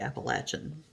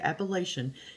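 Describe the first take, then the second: First: It is said the southern US way. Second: It is said the northern US way.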